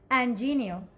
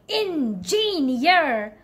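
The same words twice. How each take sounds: First: The syllables flow smoothly with one main stress. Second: Every syllable gets equal heavy stress. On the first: The speaker calls it right. "The correct way to say this word is engineer. Try to make it smooth" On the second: The speaker calls it wrong. "I know you try to stress on all the syllable"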